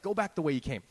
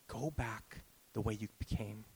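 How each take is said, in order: First: The phrase is said in a harsh, dismissive tone. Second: The phrase is said in a gentle, tender tone. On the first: The listener is being brushed off. The speaker calls it wrong. "He's not saying it like that" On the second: The listener is being comforted and encouraged. The speaker calls it right. "He's speaking to Elijah's soul"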